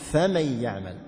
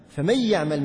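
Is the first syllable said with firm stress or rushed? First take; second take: firm stress; rushed. First: The first syllable gets firm stress. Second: The first syllable is rushed with no stress. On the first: The speaker calls it right. "تأتي بالنبر حتى ما تختلس" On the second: The speaker calls it wrong. "النطق بأول الحرف سريعا في أوائل الآيات"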